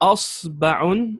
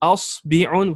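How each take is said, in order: First: The vowel after the b is a. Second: The vowel after the b is i. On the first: "with a fatha on the hamza here and the fatha on the ba" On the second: "with a kasra on the ba"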